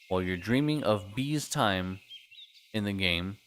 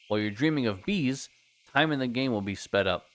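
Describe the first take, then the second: First: It runs on with no pause after bees. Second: There is a pause after bees.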